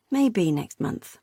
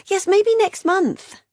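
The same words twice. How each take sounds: First: Said in the usual way. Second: High, slow, noncommittal; evasive Beth. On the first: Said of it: "repeated Megan". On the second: A narrator's reading. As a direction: sister dodging a visit. Beth's high evasive reply.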